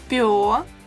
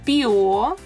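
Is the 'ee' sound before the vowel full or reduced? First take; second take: reduced; full. First: The 'ee' sound is cut very short. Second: A full 'ee' sound comes before the vowel. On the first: "then try reducing it to a very short sound" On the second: "try pronouncing them with E first"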